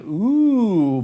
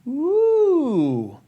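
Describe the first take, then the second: First: It is said at a lower speaking pitch. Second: It is said higher, in a heady voice.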